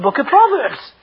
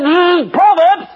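First: Said in the usual way. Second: High, loud sneering "Proverbs"; mocking the preacher's answer; scornful mockery. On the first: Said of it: "And I said". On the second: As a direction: spit the word out in contempt. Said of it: "He went berserk".

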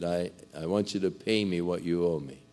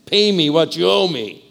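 First: Quiet calm request. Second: Louder and higher, grabbing him by the throat; harsh demand. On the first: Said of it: "and he said". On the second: Servant throttles his fellow over fifteen dollars, harsh demand. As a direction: bark it like a creditor choking a man. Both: Acted.

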